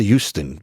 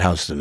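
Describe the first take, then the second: First: "Houston" said as HYOO-stun, like the Texas city; standard pronunciation of Houston. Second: "Houston" said as HOW-stun, the New York way; New York pronunciation of Houston. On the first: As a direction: open "Houston" with a YOO sound. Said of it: "but it's s-, pronounced Houston". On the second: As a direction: give "Houston" an OW in its first syllable. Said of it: "we call it Houston in New York". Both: Shown as a demonstration.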